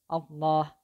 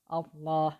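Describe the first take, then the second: No difference in how they are said.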